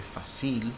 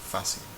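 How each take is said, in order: First: The stress is on the last syllable. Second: The stress is on the second-to-last syllable. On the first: The speaker calls it wrong. "nobody would say" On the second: The speaker calls it right. "the second to last syllable is stressed"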